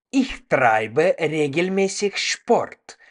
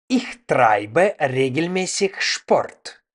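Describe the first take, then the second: No difference in how they are said.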